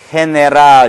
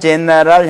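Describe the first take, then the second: First: The word begins with a breathy h sound. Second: The word begins with an English j sound. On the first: The speaker calls it right. "이와 어울리는 경우는 어떻게 됩니까? general 이렇게 된 거죠" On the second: The speaker calls it wrong. "general 형태로 하면 영어식 발음이겠고"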